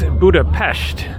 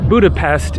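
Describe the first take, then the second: First: It is said with Hungarian pronunciation. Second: It is said with English pronunciation. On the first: This is how locals say it. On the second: This is the English name.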